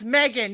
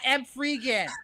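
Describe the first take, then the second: First: It is said as two syllables, like Megan. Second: It is said with a 'three' sound inside. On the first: The speaker calls it right. "it's Megan" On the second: The speaker calls it wrong. "not M. Freegan"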